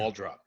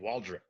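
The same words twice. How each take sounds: First: The last syllable has an 'o' vowel, like drop. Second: The last syllable has an 'i' vowel, like drip. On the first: The speaker calls it right. "it's not a drip; it's a drop" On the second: The speaker calls it wrong. "kind of an I in it instead of an O"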